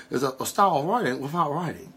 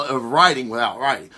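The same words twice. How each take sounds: First: Soft, quick put-on Bruce Lee-style accent; hushed, rushed mock accent impersonation. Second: Said in the usual way. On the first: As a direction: badly imitate a martial arts star's accent, fast and quieter. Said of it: "that's my Bruce Lee impersonation".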